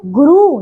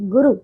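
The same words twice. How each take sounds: First: गुरु said as "guroo"; wrong long ending. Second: गुरु with short u vowels; correct short ending. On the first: Teacher showing pupils the error, गुरु with long oo. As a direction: stretch the final vowel of गुरु. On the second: Teacher correcting pupils, गुरु with short u. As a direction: keep the final u of गुरु short. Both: Shown as a demonstration. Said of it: "गुरु नहीं".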